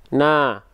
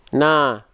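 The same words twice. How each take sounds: No difference in how they are said.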